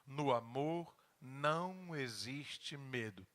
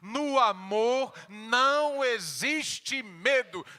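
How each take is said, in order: First: It is said at a normal, softer volume. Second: It is shouted loudly like a battle cry.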